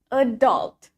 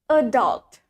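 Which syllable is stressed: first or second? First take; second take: second; second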